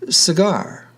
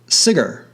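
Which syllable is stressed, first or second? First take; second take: second; first. First: The stress is on the second syllable. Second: The stress is on the first syllable. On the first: The speaker calls it right. "in this case on the final syllable" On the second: The speaker calls it wrong. "Otherwise, cigar would be pronounced"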